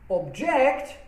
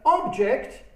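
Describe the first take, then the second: First: The stress is on the last syllable. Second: The stress is on the first syllable. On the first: It means to disagree with something. "with stress falling on the last syllable" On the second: It is a thing you can see and touch. "with stress on the first uh, syllable"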